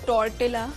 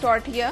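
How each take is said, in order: First: The middle consonant is pronounced as an L. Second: The middle consonant is pronounced as a Y. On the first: The speaker calls it wrong. "जो normally लोग बोलते हैं टॉर्टिला, गलत बोलते हैं" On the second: The speaker calls it right. "एल्स जो है वो साइलेंट होता है"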